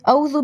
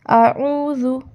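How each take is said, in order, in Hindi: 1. हलक़ की रुकावट की जगह w जैसी ग्लाइड आती है। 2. पहले स्वर के बाद हलक़ की रुकावट वाली आवाज़ आती है। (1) "आइन की जगह पे वाऊ कहते हैं" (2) "आइन हलक़ के बीच से अदा होता है"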